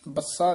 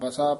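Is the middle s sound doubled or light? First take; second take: doubled; light. First: The s sound is doubled and held heavily. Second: The s sound is single and said lightly. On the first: The speaker calls it wrong. "ਬੱਸਾ ਨਹੀਂ ਕਹਿਣਾ" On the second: The speaker calls it right. "ਪੋਲਾ ਬਸਾ ਪੋਲਾ ਹੀ ਬੋਲਣਾ"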